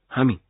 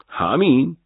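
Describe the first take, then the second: First: Said in the usual way. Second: همین? pushed higher and louder with a rising question; incredulous. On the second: Acted. Officer echoing the major's answer in disbelief. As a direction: throw همین back in disbelief.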